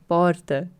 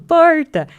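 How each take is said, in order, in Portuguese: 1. O R é suave e leve, sem retroflexão. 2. O R é fortemente prolongado e retroflexo. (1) "Porque não sou eu falando" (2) "o meu é muito puxado"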